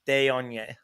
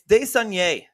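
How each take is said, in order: First: No S sound is pronounced in the name. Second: An S sound is pronounced in the name. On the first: The speaker calls it right. "The S is silent" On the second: The speaker calls it wrong. "I keep on adding an S"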